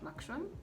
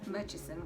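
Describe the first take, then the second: First: It is said with a 'ksh' sound in the middle. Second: It is said with a 'ch' then 's' sound. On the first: The speaker calls it wrong. "not Makshon" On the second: The speaker calls it right. "Murchison, guys"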